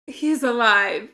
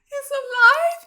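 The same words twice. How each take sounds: First: Said in the usual way. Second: Much higher, louder stunned question. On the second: Real, not acted. To the screen, stunned that Spike lives. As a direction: ask it in total disbelief.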